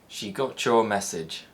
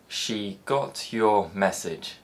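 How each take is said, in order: First: The t and y merge into a ch sound. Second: The t and y sounds stay distinct.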